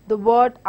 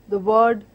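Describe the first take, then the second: The two takes are said the same way.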